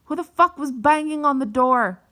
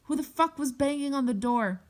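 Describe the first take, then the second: First: Loud, high imitation of an angry scream; retold scream at full volume; screaming mom. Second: High-pitched mock scream, held back in volume; restrained retold shriek; imitated scream. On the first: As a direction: yell it like an outraged mother. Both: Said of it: "I hear her screaming".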